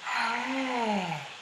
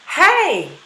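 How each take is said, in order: First: The breathy onset is slow and gradual. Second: The breathy onset is quick and abrupt. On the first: "if you do it gradually" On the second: "we can have an abrupt or a quick aspirate onset"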